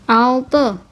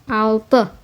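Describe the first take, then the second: Both takes have the same delivery.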